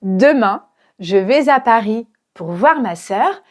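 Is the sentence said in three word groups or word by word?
three groups. The words are grouped into three phrases. The speaker calls it right. "j'ai regroupé trois groupes"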